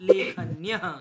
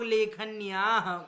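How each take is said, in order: First: The vowel before the ending is kept short. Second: The vowel before the ending is lengthened. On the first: It stays the plural of the first case. The speaker calls it right. "तो उच्चारणम शुद्धम भवेत" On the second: It becomes a form of the sixth case. The speaker calls it wrong. "हम लोग लेखन्याः कर दे, दीर्घ कर देते हैं।"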